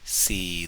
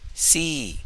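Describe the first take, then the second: First: The syllable is drawn out with a long tone. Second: The syllable is said on a high tone. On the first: "the long tone" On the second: "high tone"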